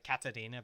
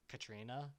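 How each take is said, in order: First: An extra vowel separates the t and r. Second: The t and r are joined as a cluster. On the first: This is the Japanese pronunciation. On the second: This follows the spelling.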